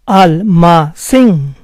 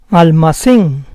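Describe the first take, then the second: First: Almacén slowly split as al-ma-CÉN; syllable by syllable. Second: Said in the usual way. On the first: Shown as a demonstration. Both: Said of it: "try to understand the rules".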